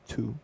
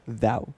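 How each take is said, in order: First: It starts with a plain t sound. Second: It starts with a soft th sound. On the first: The speaker calls it wrong. "I always thought it was two" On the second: The speaker calls it right. "So how do you pronounce it?"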